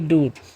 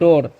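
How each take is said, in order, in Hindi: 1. स्वर एक लंबी 'oo' ध्वनि है। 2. स्वर एक लंबी 'oh' ध्वनि है। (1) "ना कि डूर" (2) "इसे हम लोग पढ़ते हैं डोर"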